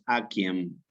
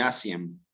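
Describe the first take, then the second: First: The c is hard, like a k sound. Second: The c is soft, not a k sound. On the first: The speaker calls it right. "la pronunciación con una K" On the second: The speaker calls it wrong. "nunca se dice Asien"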